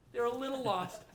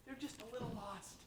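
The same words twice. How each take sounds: First: Said in the usual way. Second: A quieter, gentle dropped line; soft aside. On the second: Real, not acted. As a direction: say it almost kindly under your breath. Softening criticism of senators.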